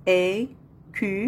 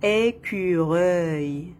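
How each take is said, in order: First: "Écureuil" in three beats, é, cu, reuil; split into syllables. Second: Said in the usual way. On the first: Shown as a demonstration. Teacher counting three syllables for pupils, split into syllables. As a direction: pause after each syllable of "Écureuil". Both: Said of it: "Trois syllabes".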